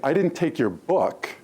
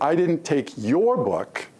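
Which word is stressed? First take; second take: book; your. First: The stress is on the word book. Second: The stress is on the word your.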